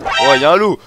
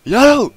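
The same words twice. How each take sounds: First: Loud, raised-pitch warning; startled loud exclamation; alarmed shout. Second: Very high, loud alarm cry; high-pitched startled yell; panicked yelp. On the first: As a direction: cry out at a sudden threat. Spots a wolf. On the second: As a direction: shriek the warning in panic. Repeats wolf alarm higher. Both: Real, not acted.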